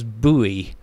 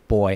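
First: It is said as two syllables, boo-ee. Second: It is said as one syllable, like boy. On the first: The speaker calls it wrong. "which Americans somehow pronounce as buoy" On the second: The speaker calls it right. "the pronunciation of the word boy"

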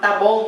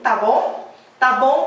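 First: The pitch falls at the end. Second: The pitch rises at the end. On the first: It states that something is okay. "แต่ถ้าสมมติคนลงเสียงต่ำ" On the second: It asks whether something is okay. "ถ้าสมมุติว่าคุณขึ้นเสียงสูงตาบงแปลว่าโอเคไหม"

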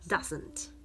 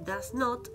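First: The words are merged into one quick word. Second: Both words are said in full, separately. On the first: "se puede contraer y decir más rápido y más fácil" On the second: "este does not"

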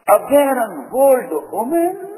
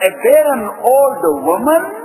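First: It is said with astonished disbelief. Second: It is said flatly, as a plain translation.

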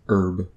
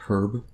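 First: The word begins with a silent H. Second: The word begins with a pronounced H. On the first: The speaker calls it right. "saying herb with a silent H" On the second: The speaker calls it wrong. "not a herb"

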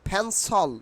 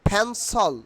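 No difference in how they are said.

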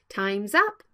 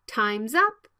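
The two takes are said the same way.

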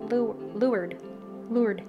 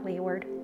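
First: It is said as two short syllables, lured. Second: It is said as spelled, lee-ward. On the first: The speaker calls it right. "lured. It's spelled completely differently than it's pronounced" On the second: The speaker calls it wrong. "not leeward"

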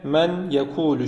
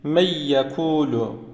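First: The n sound is clearly pronounced before the y. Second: The n merges into a doubled y sound. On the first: "normalde men yekulu şeklinde okunur" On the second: "Nun sesini y harfine katarak okuyacağız"

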